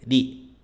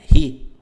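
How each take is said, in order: First: The r sounds like a Japanese r. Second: The r sounds like a Portuguese r. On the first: The speaker calls it right. "É ri" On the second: The speaker calls it wrong. "não é ri"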